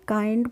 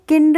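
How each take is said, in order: First: The vowel is long, as in 'eye'. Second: The vowel is short, as in 'kid'. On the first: The speaker calls it right. "इसको पढ़ते हैं काइंड पढ़ते हैं" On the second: The speaker calls it wrong. "किंड नहीं पढ़ेंगे हम"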